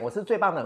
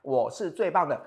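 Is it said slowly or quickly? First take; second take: quickly; slowly. First: It is said quickly. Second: It is said slowly.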